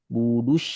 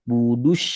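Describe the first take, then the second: Both takes have the same delivery.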